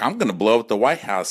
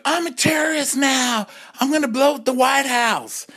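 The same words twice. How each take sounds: First: Said in the usual way. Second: Mock [name]. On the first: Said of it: "[name]'s like". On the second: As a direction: play [name] as a wild diva. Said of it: "the [name]'s like".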